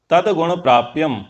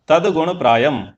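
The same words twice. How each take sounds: First: "प्राप्यम" with a p before the y; mistaken verse reading. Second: "प्रायम" with a plain y, no second p; corrected verse reading. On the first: Teacher misreads the verse for students, "प्राप्यम" with p-y cluster. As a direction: recite "प्राप्यम" with the extra p sound. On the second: Teacher corrects the verse for students, "प्रायम" without second p. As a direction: recite "प्रायम" as praa-yam. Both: Shown as a demonstration. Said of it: "नहीं, तदा".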